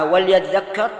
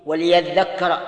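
First: "وليذكر" misread as wal-yadhdhakkar; mistaken vowelless lam. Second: "وليذكر" as wa-li-yadhdhakkara; lam with kasra. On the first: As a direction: close the l in "وليذكر", no i after it. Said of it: "فقد أخطأ خطأ عظيما". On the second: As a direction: sound a clear i after the l in "وليذكر". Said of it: "تكون مكسورة بكل حال". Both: Shown as a demonstration.

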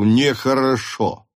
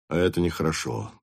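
First: "нехорошо" drawn out, raised in pitch; emphatic reproach. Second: "нехорошо" said low and quickly; low reproach. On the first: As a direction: stretch "нехорошо" out with force. Captain ends reproach emphatically. (протяжно, с нажимом: «нехорошо») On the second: Captain reproaches, first take. (низко, быстро, с укором: «нехорошо») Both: Acted.

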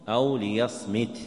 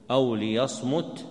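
First: "ليصمت" with an i after the mim; kasra on the mim. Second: "ليصمت" with a u after the mim; damma on the mim. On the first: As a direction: say "ليصمت" as li-yasmit. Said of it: "وسمع كسرها أيضًا". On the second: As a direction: say "ليصمت" as li-yasmut. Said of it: "بضم الميم". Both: Shown as a demonstration.

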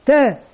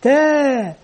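First: Said in the usual way. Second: "تاء" with the aa held for two counts; long vowel. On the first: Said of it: "من ينطق هذا". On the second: Shown as a demonstration. Teacher reviewing the natural madd, "تاء" with drawn-out vowel. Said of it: "ألف مد طبيعي حركتان".

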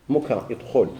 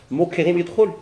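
First: مكرم يدخل. stated as a settled answer, falling and a bit lower; answering tune. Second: مكرم يدخل؟ asked with a rising question tune, يدخل lifted; asking tune. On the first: Teacher answers his own question to the class, falling statement. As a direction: give the verdict مكرم يدخل. with a firm fall. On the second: Teacher quizzes students whether مكرم joins, rising question. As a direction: quiz the class on مكرم يدخل؟ with a rise. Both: Shown as a demonstration.

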